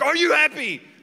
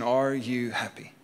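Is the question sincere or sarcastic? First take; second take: sarcastic; sincere. First: It is asked sarcastically and aggressively. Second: It is asked as a sincere question.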